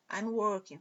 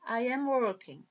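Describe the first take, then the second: First: "I'm" run together as one syllable; contracted form. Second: Said in the usual way. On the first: Shown as a demonstration. Teacher showing students the short form, "I'm" said as one syllable. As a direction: say "I'm working" with I and am merged. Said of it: "forma contraída".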